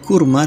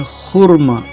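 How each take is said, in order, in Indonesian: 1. Vokal akhirnya adalah bunyi a biasa. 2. Vokal akhirnya cenderung ke bunyi o. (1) "bukan kurma" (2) "A yang di belakangnya cenderung ke O"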